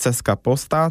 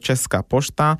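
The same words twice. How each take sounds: First: The hooked letters are read as plain s and c. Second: The hooked letters are read as sh and ch. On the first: The speaker calls it wrong. "to nie jest Czeska Poczta" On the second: The speaker calls it right. "czytamy jako polskie sz czy ż"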